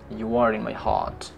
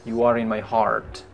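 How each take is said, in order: First: British accent, with the r in heart dropped. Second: American accent, with the r in heart sounded. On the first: "British bilang" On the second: "Kalau orang Amerika bilang"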